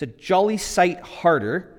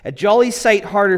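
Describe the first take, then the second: First: It is said in the speaker's ordinary accent. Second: It is said in a put-on British accent.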